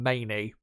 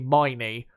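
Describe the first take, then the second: First: The first syllable sounds like 'may'. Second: The first syllable sounds like 'my'. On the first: The speaker calls it wrong. "rather than Maney" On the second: The speaker calls it right. "it's actually Miney"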